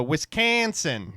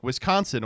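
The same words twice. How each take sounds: First: WISCONSIN drawn out with a flat "can" in a Wisconsin accent; exaggerated Wisconsin accent. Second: Said in the usual way. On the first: Shown as a demonstration. Host showing how locals say it, exaggerated Wisconsin accent. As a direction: hit "Wisconsin" long and loud in exaggerated Wisconsin accent. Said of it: "You can exaggerate it to shit". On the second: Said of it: "He's like".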